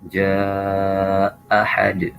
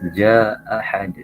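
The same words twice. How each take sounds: First: The vowel in jaa is lengthened. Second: The vowel in jaa is held short. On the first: "tawasud. Berarti kita panjangkan" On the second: "Jadi bacanya qasr dulu. Maka kita baca"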